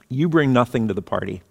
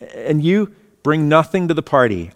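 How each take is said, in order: First: It sounds cutting and insulting. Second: It sounds warm and welcoming.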